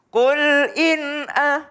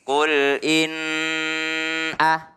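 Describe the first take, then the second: First: The n sound is clear and released quickly. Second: The n sound is held and lengthened. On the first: The speaker calls it right. "langsung dia izhar, nunnya jelas" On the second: The speaker calls it wrong. "tidak boleh kul in ah, nggak boleh ditahan di situ"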